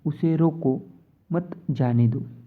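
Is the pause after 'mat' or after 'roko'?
after roko. A pause comes right after the word 'roko'. He must be stopped and not let go. "मतलब उसे जाने नहीं देना है"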